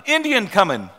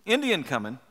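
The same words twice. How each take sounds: First: Raised shout of alarm, higher; cry of alarm. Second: Said in the usual way. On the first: A narrator's reading. Watchman crying out the warning to the settlers, shouted. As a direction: call out the warning to the men inside. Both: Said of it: "the cry went up".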